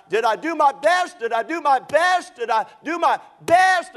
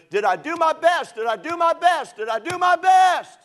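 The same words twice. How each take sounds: First: High, loud, desperate repeated cry; yelling out. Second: Very high, full-throated shout, rising to the last; yelling as loud as he can. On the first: Injured swimmer in hospital cries out, loud and high. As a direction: cry it out like a delirious man in pain. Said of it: "he starts to yell out". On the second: Swimmer waking from sedation shouts at full force. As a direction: scream it with everything, desperate. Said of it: "he'd yell it as loud as he could". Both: Retold or imitated.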